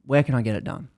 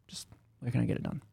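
First: Said in the usual way. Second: Unvoiced, faster, muttered under breath; whispered repeat. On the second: Annoyed patient pressing Abby again, in a whisper. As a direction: hiss the question again, impatient.

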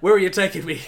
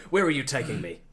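First: Laughing. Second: Bond interrupting. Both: Acted. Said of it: "interrupted Bond".

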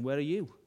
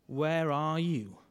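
First: Said in the usual way. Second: Drawn out slowly, searching; slow searching question. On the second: Shown as a demonstration. Preacher asking the congregation slowly, searching. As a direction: stretch it slow, let it sink in. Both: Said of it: "maybe you should ask it of yourself".

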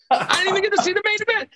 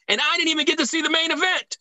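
First: High, fast whiny voice; whiny mock complaint. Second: Said in the usual way. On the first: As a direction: whine it like a sulky kid. Exaggerated repeat of complaint.

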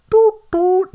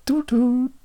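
First: Very high loud chime; loud chime imitation. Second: High two-note chime; chime imitation. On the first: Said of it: "That's also not it". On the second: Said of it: "That was not it".

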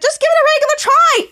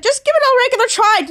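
First: Very high mock yell; acted group exasperation. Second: High, impatient plea; acted exasperation. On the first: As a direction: yell it for the whole fed-up group. All characters repeat it together. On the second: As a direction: snap it as one exasperated character. Retold exasperated single character.

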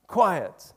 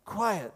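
First: Forceful command. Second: Polite. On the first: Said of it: "literally means "shut up". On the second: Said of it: "But we're being polite". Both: Shown as a demonstration.

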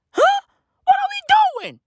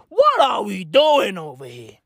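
First: Very high, incredulous yelp; exasperated squawk. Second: Said in the usual way. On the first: Acted. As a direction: screech the question in comic disbelief. Repeats the question, exasperated.

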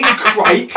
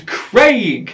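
First: "Crike" rhyming with "bike"; laughing mispronunciation, "Crike"; Cockney pronunciation. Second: Said in the usual way. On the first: Retold or imitated. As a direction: say "Crike" with a wide Cockney i vowel. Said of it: "he said it with his accent as Crike". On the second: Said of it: "he doesn't mean Crike".

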